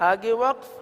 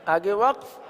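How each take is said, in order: No difference in how they are said.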